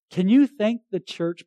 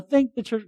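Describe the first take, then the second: First: Said in the usual way. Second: A rote, hollow "Thank the church"; artificial thanks. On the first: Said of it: "They're being genuine". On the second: Retold or imitated. Pastor mocking a cliched thank-you, hollow and rote. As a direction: toss off "Thank the church" like a stock phrase. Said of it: "it's not like this artificial".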